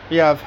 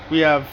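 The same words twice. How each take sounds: The two takes are said the same way.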